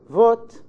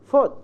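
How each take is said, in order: First: The word begins with a voiced v sound. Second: The word begins with a voiceless f sound. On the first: The speaker calls it right. "instead of saying" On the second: The speaker calls it wrong. "they say"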